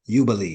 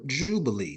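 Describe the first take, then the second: First: The word begins with a Y sound. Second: The word begins with a J sound. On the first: The speaker calls it right. "it's really Jubilee, because remember, it's no J" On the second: The speaker calls it wrong. "the mispronounced word Jubilee"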